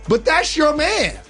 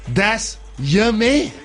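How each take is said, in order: First: It is said in a normal voice. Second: It is said in a deep belly voice.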